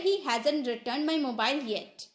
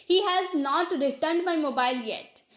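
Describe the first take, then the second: First: "hasn't" run together as HAZ-unt; fast-English contraction. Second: Said in the usual way. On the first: Shown as a demonstration. Teacher showing learners fast spoken English, contracted "hasn't". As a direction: contract has and not into "hasn't". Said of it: "लेकिन हम यहाँ fast English बोल रहे". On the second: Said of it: "अगर normal English की बात करते".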